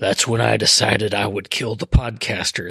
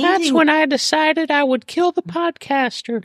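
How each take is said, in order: First: It is said in a very deep voice. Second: It is said in a natural voice. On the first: "In a very deep voice" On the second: "No, not a deep voice"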